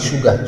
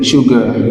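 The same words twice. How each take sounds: First: It is said as a local-language loanword. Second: It is said with English pronunciation. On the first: "dans ma langue locale, on dit sugar" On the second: "En anglais, c'est sugar"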